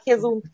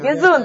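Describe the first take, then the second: First: The word begins with a throaty h sound. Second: The word begins with a hard g sound.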